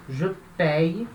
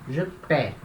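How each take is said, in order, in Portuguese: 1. O verbo termina com um glide y. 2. O verbo termina em uma vogal simples. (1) "a pronúncia também é diferente" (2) "ou pé"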